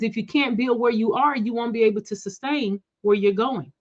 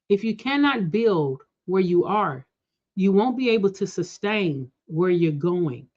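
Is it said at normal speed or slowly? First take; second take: normal speed; slowly. First: It is said at normal speed. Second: It is said slowly.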